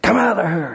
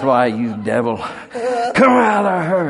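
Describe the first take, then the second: First: High forceful command to the devil; commanding shout. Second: Loud, slow, high cry ordering the devil out; commanding shout. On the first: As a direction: order the spirit out, ringing high. Deliverance command retold. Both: Retold or imitated.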